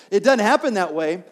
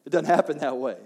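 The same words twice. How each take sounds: First: Louder, with a punch on "doesnt"; firm preacher emphasis; emphatic repeat. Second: Said in the usual way. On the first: Shown as a demonstration. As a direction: drive home "It doesn't happen that way". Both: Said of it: "repeats line with more force".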